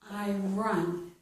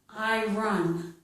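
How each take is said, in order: The two takes are said the same way.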